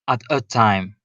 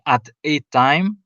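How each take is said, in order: First: The word 'a' is reduced to a soft schwa. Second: The word 'a' is said separately with full vowel. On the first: The speaker calls it right. "they say at a time. they sort of abbreviate the sound" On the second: The speaker calls it wrong. "instead of saying at a time, that would be very demanding"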